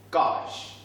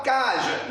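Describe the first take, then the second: First: "cage" closed cleanly on the j sound; correct pronunciation of cage. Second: "cage" said wrongly with an added vowel, ca-geuh; louder, higher "cage" ending in a voiced euh; mispronounced cage. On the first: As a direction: say "cage" as kahzh, no vowel after the g. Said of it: "il faut bien prononcer". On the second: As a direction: say "cage" as KAH-zhuh, two beats. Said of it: "il faut bien prononcer, hein. Pas cage". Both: Shown as a demonstration.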